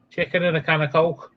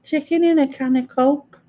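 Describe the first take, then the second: First: Put-on Scottish accent. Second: Mock Scottish accent. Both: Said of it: "How do you do Scottish?".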